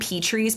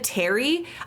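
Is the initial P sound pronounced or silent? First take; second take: pronounced; silent. First: The word starts with a P sound. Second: The word starts with a T sound. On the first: The speaker calls it wrong. "I call them P trees because that's how I pronounce it in my brain" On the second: The speaker calls it right. "I know it's supposed to be silent P"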